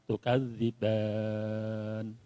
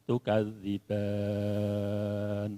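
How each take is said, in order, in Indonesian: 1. Vokal terakhir ditahan selama empat ketukan. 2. Vokal terakhir ditahan selama enam ketukan. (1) "dua alif" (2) "Tiga alifnya"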